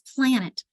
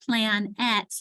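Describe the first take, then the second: First: The second syllable has a weak, reduced vowel. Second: The second syllable has a full, clear vowel. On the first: The speaker calls it right. "you want to say it quickly" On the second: The speaker calls it wrong. "it's not plan et"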